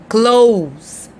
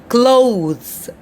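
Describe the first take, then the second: No difference in how they are said.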